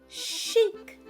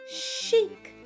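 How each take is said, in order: No difference in how they are said.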